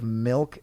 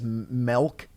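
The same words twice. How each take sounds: First: The vowel is pronounced in the ordinary way. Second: The vowel is pronounced in an unusual way. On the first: This is the normal way to say it. The speaker calls it right. "instead of milk" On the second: This is how the mocked person says it. The speaker calls it wrong. "you're like the type of person that says milk instead of"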